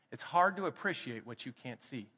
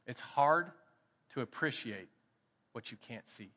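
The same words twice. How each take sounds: First: Said in the usual way. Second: "It's hard" then pause, "to appreciate" then pause, "what you can't see" fading soft; measured phrasing. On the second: Shown as a demonstration. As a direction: drop each phrase slowly with gaps.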